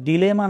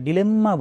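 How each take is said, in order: First: The m sound is short and single. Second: The m sound is held long and doubled. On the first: "ডিলেমা না বলে" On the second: "ডিলেম্মা বলি"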